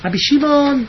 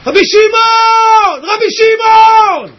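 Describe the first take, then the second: First: Restrained radio-host voice; קול של מנחה רדיו. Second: High, long-drawn shout to Rabbi Shimon; זעקה. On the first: Retold or imitated. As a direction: say the name smoothly, like a radio presenter. (קול מאופק של קריין רדיו) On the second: Shown as a demonstration. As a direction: cry out with full heart, stretching the name. (זעקה גבוהה וממושכת) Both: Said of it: "הוא ככה קול כזה של מנחי רדיו".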